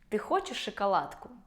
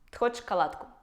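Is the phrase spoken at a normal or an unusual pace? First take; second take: normal; unusual. First: The phrase is spoken at an ordinary conversational pace. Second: The phrase is spoken at an odd, unnatural pace. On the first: The speaker calls it right. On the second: The speaker calls it wrong.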